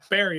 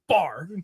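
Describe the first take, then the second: First: The word is said as two syllables. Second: The word is said as one syllable. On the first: The speaker calls it right. "No, Barry, apparently" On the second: The speaker calls it wrong. "It made sense for me to say bar"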